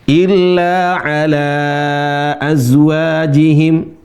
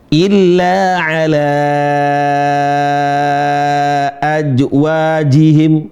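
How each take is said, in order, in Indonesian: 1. Kata terakhir berbunyi z, bukan j. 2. Kata terakhir berbunyi j, bukan z. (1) "harus dilatih memang ya" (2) "seringkali huruf Z, zai jadi J"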